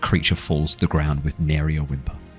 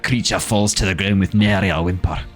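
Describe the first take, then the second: First: It is said in the speaker's ordinary accent. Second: It is said in a put-on Scottish accent. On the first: The speaker calls it wrong. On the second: The speaker calls it right.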